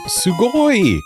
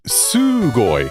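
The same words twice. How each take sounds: First: A later vowel in the word is stretched. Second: The first vowel in the word is stretched. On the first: This is the usual way to stretch the word. The speaker calls it right. "it would be the O or the I" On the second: This is an odd, unusual way to stretch the word. The speaker calls it wrong. "which is a little off"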